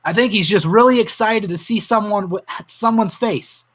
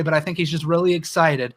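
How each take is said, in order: First: A touch choked up, moved by the memory; holding back tears. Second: Said in the usual way. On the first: Real, not acted. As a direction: fight the tears as you repeat her words. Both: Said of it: "I'm gonna cry if I say this".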